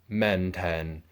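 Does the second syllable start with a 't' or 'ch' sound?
t. The second syllable starts with a 't' sound. This is the non-Cantonese dialect form. "And then men ten"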